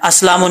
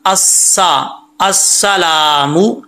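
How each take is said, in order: First: अस्सलामु quick, with a single light s; mistaken reading. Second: Slow अस्सलामु, holding a thin doubled s. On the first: Teacher showing what not to read, careless recitation. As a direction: rush अस्सलामु without holding the s. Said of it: "नहीं पढ़ना". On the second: Teacher showing the shadda, careful recitation. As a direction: lean on the s, then stretch "laa" in अस्सलामु. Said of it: "शद है वो भी पढ़नी है". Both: Shown as a demonstration.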